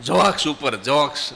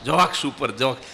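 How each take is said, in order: Both takes have the same delivery.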